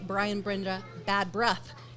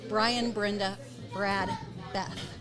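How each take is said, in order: First: The names are said fast and run together. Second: The names are said slowly and separately.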